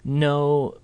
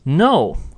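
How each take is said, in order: First: The pitch stays level. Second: The pitch falls sharply. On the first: More explanation is about to follow. "when said in this kind of level tone" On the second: It is an angry or final refusal. "if you said it with that sharp falling tone"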